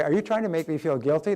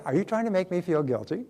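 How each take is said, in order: First: Said in the usual way. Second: Bright cheerful question, no edge. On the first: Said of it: "the third time you say". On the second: Shown as a demonstration. Speaker to a guilt-tripping mother, cheerful and light. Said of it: "say it with a cheerful voice".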